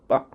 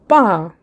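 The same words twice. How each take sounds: First: The syllable is said softly and lightly. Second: The pitch falls from high to low. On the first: "neutral tone ... you just say it very softly" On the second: "fourth tone ... from higher pitch to lower pitch"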